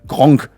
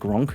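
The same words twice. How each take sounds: First: The name is pronounced with German sounds. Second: The name is pronounced with English sounds. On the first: "that's the proper German word" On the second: "that's a fun way to pronounce that in English"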